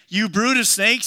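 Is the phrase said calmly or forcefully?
forcefully. The phrase is said forcefully, like a denunciation. The speaker calls it right. "he claimed"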